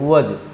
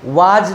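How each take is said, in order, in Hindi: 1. स्वर एक छोटी, अपचयित 'uh' ध्वनि है। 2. स्वर एक लंबी, खुली 'aa' ध्वनि है। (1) "इसको वज पढ़ेंगे" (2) "वाज नहीं होता है, कोई शब्द नहीं है डिक्शनरी में"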